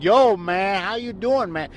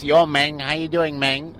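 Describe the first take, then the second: First: Imitated African American slang accent, higher pitched; clumsy imitation of African American slang speech; mock Black slang. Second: Lightly put-on Mexican accent; mock Mexican accent. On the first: Co-host explaining to the host, clumsy imitated African American slang accent. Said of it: "did you hear black slang?". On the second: Co-host demonstrating how ethnicity is heard, mock Mexican accent. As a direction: imitate a Mexican accent, roughly. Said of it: "When you hear a Mexican speak". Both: Shown as a demonstration.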